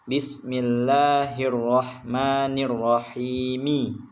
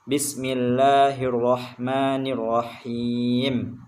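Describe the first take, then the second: No difference in how they are said.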